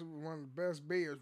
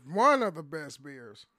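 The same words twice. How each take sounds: First: Said in the usual way. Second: ONE punched loud, the rest falling away; stress on ONE. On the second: Real, not acted. Podcaster insisting on a favourite beer, stress on One. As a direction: hit the word One hard, then ease off. Repeats claim for emphasis.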